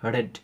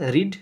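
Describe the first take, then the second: First: The vowel is short, like in 'red'. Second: The vowel is long, like in 'reed'. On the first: It is the past participle form. "শুধু উচ্চারণটা আলাদা যাবে" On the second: It is the present form. "রিডের তিনটে ফর্মই এক, শুধু উচ্চারণটা আলাদা যাবে"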